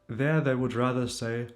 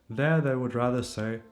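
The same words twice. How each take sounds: The two takes are said the same way.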